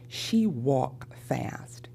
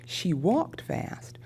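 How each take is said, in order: First: The past-tense ending sound is left off. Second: The past-tense ending sound is clearly pronounced.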